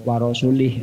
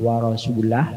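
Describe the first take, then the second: First: The word ends with an i vowel. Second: The word ends with an a vowel. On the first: The Messenger is joined to the idolaters. "kalau dibaca salah itu kalau dibaca warasulih itu berarti atafnya ke musyrikin" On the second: The Messenger is joined to God as also free. "dibaca warasulah berarti uh, atafnya ke Allah"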